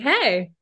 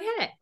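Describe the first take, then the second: First: The greeting sounds bright and excited. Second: The greeting sounds calm and low-key.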